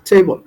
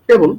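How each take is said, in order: First: The t is pressed out with a puff of air. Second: The t is plain, without a puff of air. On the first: The speaker calls it right. "আমরা বলবো টেবল" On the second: The speaker calls it wrong. "আমরা বলবো না টেবল"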